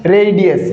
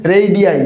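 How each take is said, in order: First: Said in the usual way. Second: रेडियाई with a clear separate ई at the end; रेडियाई ending on a distinct ई sound; final i said separately. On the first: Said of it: "इसका pronunciation क्या है". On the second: Shown as a demonstration. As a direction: say रेडियाई as re-di-ya-ee, the last ई spoken apart. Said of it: "अलग से बोला जाएगा".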